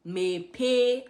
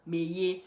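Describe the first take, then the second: First: "Mepe" said with a clear p in the middle; standard mepe. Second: "Meye" with a y sound where the p would be; Anambra meye. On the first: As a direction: say "Mepe" the standard Igbo way, lips closing on the p. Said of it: "Mepe is to open". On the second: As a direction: say "Meye" the Anambra way, a soft y in the middle. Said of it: "I say meye". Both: Shown as a demonstration.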